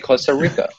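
It is said with an American-sounding accent. This is how local people say their country's name. "the name of their country, they say it with a gringo accent"

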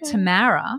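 The name is said in an American accent.

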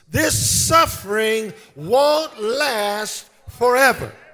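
It is said with conviction and confidence.

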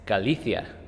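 The c is pronounced like a th sound. "with this weird lisp thing"

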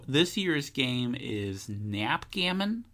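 The voice rises at the end like a question. The speaker sounds unsure of the name. The speaker calls it wrong.

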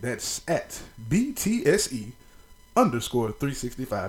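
It is said in a radio announcer voice.

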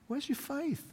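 The question sounds warm and encouraging. The listeners are being urged to remember and trust. The speaker calls it right. "I think he's encouraging us"

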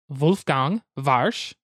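The name is said with a German accent.

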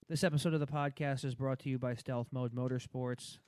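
It is read in a flat monotone.

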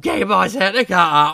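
It is said in a camp comic put-on voice.

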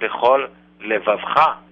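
There is a break between the two words.

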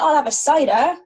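It is said in a broad Bristolian accent. This is the bigger stage version of the speaker. "the way I say it when I'm excited on stage"

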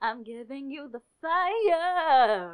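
The line is embellished with a showy vocal run.

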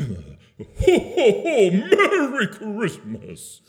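It is said with very high energy.

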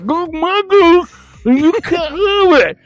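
It is spoken in a slurred way.

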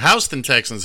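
Houston is said the New York City way.

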